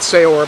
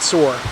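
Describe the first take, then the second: First: The name does not sound like 'soar'. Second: The name sounds like the word 'soar'. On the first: The speaker calls it wrong. "So not Saor" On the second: The speaker calls it right. "it actually is pronounced Soar"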